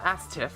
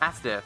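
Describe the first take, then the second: First: The middle consonant is a t sound. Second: The middle consonant is a d sound. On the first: The speaker calls it wrong. "Not Astiff" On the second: The speaker calls it right. "Astiff with a D"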